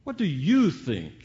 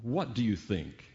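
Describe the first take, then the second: First: "you" punched high and loud; stress on YOU. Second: "what" leads, the rest falls away; stress on WHAT. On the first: Preacher turns the question on each listener, stressing "you". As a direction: hit the word "you" hard, then fall on "think". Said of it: "change the emphasis here". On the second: Preacher asks what fills your mind, stressing "what". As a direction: put the weight on "what", not on "you". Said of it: "And then the question". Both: Shown as a demonstration.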